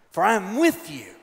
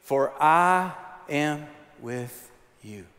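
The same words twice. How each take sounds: First: Said in the usual way. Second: Very slow, each word drawn out; slow and deliberate recitation; slow call and response. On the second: Shown as a demonstration. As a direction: lead the congregation slowly. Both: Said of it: "can you say that with me".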